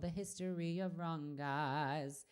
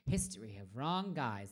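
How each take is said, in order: First: Drawn-out title. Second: Said in the usual way. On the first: Real, not acted. Singer looking up a requested song, drawn-out. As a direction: stretch out the words, half to yourself. Repeats title while searching for it.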